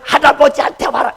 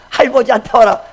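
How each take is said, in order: First: Every syllable is pronounced carefully and distinctly. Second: The middle syllable is dropped, like baby talk. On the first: The speaker insists on teaching the correct form. "이렇게 그냥 또박또박" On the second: The speaker lowers himself to the child's level. "발음이 안 나오니까"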